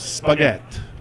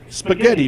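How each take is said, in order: First: The word is said with a syllable dropped. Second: The word is said with all its syllables.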